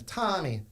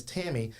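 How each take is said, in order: First: "Tommy" said with a broad ah vowel in place of Tammy; Cajun French pronunciation. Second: Said in the usual way. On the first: Retold or imitated. Granddaughter showing how great-grandmother said mom's name "Tommy", Cajun French pronunciation. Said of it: "it was so Cajun Frenchy". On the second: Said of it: "my mom's name is Tammy".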